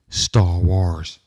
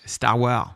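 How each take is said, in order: First: It is said in a dramatic put-on movie voice. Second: It is said with a French accent. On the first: "you have to do the voice" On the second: "Or you can do it French"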